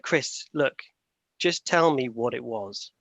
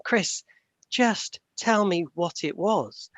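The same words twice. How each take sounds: First: Mildly annoyed, slow and firm; retold girlfriend, a touch of impatience, spelling it out slowly; a bit angry. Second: Higher, slow and insistent; imitating an irate girlfriend, each word dragged out. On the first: Girlfriend pressing Chris about the roadkill, mildly annoyed and slow. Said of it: "she started getting a bit angry". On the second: Girlfriend losing patience over the badger, higher and slow. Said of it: "She got really irate".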